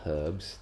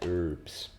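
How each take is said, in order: First: The word begins with an audible h sound. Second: The word begins with no h sound. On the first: This is how the speaker normally says it. The speaker calls it wrong. "Apparently we can't pronounce the H" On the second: This is how American streamers say it. The speaker calls it right. "learned from watching American streamers"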